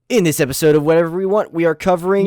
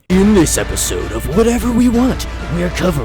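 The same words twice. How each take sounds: First: It is said in a plain, everyday voice. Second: It is said in a put-on announcer voice. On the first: The speaker calls it wrong. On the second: The speaker calls it right.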